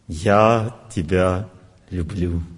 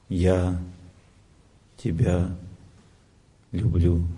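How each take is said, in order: First: It is said in a passing mood. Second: It is said softly, as if remembering. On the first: The feeling is expressed as a current mood. "Звук настроения" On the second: The feeling is expressed as a memory of love. "Человек вспомнит, вспоминает свою любовь"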